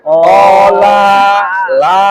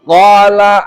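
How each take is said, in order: First: The final vowel is stretched too long. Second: The final vowel is kept short. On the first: The speaker calls it wrong. "jangan sampai dibaca kola la nah, itu kepanjangan" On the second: The speaker calls it right. "harus dibacanya kola"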